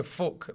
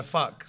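First: "Fuck" with a short northern oo vowel, like foock; the northern "Fuck" he slips into without thinking; northern swear. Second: "Fuck" with a southern uh vowel, like fuck; corrected southern "Fuck" for down south; southern swear. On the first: Player showing the swear he uses up north, in a northern accent. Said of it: "I do swear in Northern". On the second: Player showing how he corrects his swear down south, in a southern accent. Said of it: "I correct myself down south and I go". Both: Shown as a demonstration.

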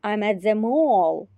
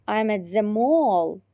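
The two takes are said the same way.

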